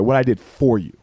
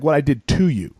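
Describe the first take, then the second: First: Correcting, with "for" picked out; stress on FOR. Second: "to" picked out as the wrong word; stress on TO. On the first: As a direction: lean on "for" as the correction. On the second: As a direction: lean on "to", quoting it back. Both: Retold or imitated. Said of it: "you're using the wrong word there".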